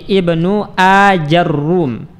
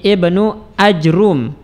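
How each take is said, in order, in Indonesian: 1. 'a' mengikuti j, dan r-nya dobel. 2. Tidak ada vokal yang mengikuti j, dan r-nya tunggal. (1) "jimnya kita fathah, ra-nya kita dhammah dan di tasydid" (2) "mensukun jim dan mendomah ra tanpa ditasydidkan"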